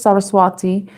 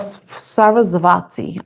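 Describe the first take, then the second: First: The middle consonant is a W sound. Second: The middle consonant is a V sound.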